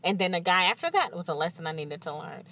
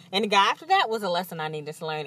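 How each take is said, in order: First: Said in the usual way. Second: Quick, rattled-off repeat; rushed repeat. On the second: Real, not acted. Listing exes to viewers, fast weary rattle. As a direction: rattle it off, fed up. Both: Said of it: "repeated list".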